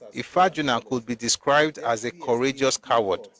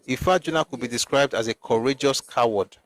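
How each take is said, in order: First: It is read slowly. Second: It is read at normal speed.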